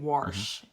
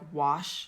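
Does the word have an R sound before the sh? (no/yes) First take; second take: yes; no. First: An R sound is added before the sh. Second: No R sound comes before the sh. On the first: This is how a local dialect speaker says it. The speaker calls it wrong. "he'll add a R" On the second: This is the usual way to say it. The speaker calls it right. "instead of like wash"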